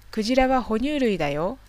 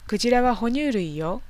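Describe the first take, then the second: First: Said in the usual way. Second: 哺乳類よ ending on a light よ with no だ; feminine sentence ending. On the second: Shown as a demonstration. Teacher reading a woman's line, 哺乳類よ ending gently on よ. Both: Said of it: "かっこ女".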